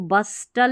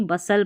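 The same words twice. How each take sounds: First: बस्टल with the T sounded between S and L; wrong pronunciation. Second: बसल with a silent T; correct pronunciation. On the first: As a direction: say बस्टल with an audible T. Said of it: "इसको बस्टल नहीं पढ़ेंगे". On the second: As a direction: say बसल, S running straight into L. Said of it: "टी है ना वो silent है". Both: Shown as a demonstration.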